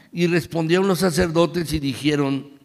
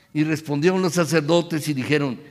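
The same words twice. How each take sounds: The two takes are said the same way.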